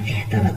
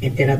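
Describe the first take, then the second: First: The word is said with an h sound. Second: The word is said without an h sound. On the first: The speaker calls it right. "শুদ্ধ করে বললে হবে এহতেরাত" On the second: The speaker calls it wrong. "এতেরাত না"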